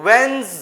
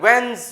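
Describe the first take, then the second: The two takes are said the same way.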